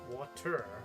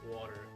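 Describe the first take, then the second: First: The middle consonant is a clear T. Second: The middle consonant sounds like a soft D. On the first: This is the way it is supposed to be said. "we're supposed to say water" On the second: This is the more southern way of saying it. "I'd say like with the D sort of sound rather than the T sound"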